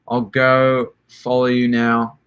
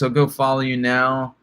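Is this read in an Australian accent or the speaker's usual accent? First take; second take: Australian; usual. First: It is read in an Australian accent. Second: It is read in the speaker's usual accent.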